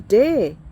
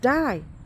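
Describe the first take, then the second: First: The vowel rhymes with 'say'. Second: The vowel rhymes with 'eye'. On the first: The speaker calls it wrong. "You could say day" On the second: The speaker calls it right. "but it's die"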